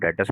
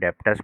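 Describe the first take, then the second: First: The b sound is left silent in the middle. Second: The b sound is pronounced in the middle. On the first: The speaker calls it right. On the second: The speaker calls it wrong.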